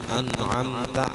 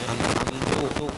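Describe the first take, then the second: First: The word ends with an a vowel. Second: The word ends with a u vowel. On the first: "ta an'amta" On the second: "kadhammi ta'i"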